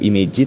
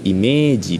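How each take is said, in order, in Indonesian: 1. Vokal setelah m pendek. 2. Vokal setelah m panjang. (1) "bukan tsunagaru imeji" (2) "baca panjang ya"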